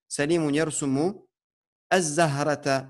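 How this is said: It pauses, then restarts with a glottal stop. "Ou soit tu t'arrêtes comme tu as fait, et là, tu es obligé de dire az-zahrata"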